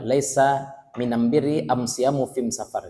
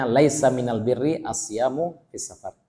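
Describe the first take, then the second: First: Minam birri am siyamu fim safar, am in place of al. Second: Said in the usual way. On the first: Shown as a demonstration. Teacher demos the dialect reading, am instead of al. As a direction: read the hadith with am for every al. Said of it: "tapi alif mim". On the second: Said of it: "Dia kan hadisnya".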